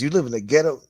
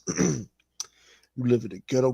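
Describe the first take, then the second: First: It is read in a plain, normal voice. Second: It is read in a put-on character voice.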